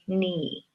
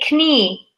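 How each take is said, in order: First: The word starts with an N sound. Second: The word starts with a spoken K sound. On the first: The speaker calls it right. "we say knee" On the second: The speaker calls it wrong. "We don't say knee"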